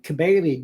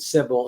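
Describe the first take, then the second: First: The name is said with a Greek pronunciation. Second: The name is said with an English pronunciation. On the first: "I use the Greek pronunciation" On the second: "rather than Sibyl"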